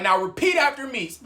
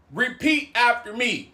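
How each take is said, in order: First: Firm, raised-pitch retold order; stern command. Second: Slower, deliberate retold order; acted-out measured insistence; slow stern command. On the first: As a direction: instruct them firmly. Acted command, first take. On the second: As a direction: spell out the order word by word. Same command repeated more slowly.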